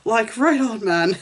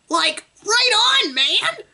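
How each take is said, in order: First: It is said in the reader's normal voice. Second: It is said in a put-on Shaggy voice.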